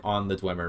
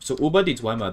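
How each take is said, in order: First: Said in the usual way. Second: Über said the German way, rounded ü, "über die" as oo-ber dee; German reading. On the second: Shown as a demonstration. Streamer reading a German book title aloud, German pronunciation. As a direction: read the German phrase über die Dwemer in German. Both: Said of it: "that means, like".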